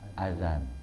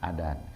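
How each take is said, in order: First: The middle consonant is a voiced th sound. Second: The middle consonant is a d sound. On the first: The speaker calls it right. "Tapi yang benar apa ya? ... Zal" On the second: The speaker calls it wrong. "Ada orang azan, adan"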